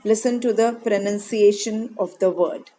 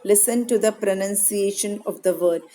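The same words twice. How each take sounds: The two takes are said the same way.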